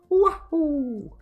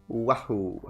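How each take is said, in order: First: It is a stronger, more Italian Mario voice. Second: It is a weak, barely Italian Mario voice.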